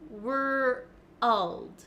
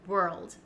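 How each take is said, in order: First: It is split into two syllables with an added vowel. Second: It is said quickly as one smooth syllable. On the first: The speaker calls it wrong. "break down the word and say were first, and then to get the L sound" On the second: The speaker calls it right. "as a native speaker, I don't think about it and it just comes naturally"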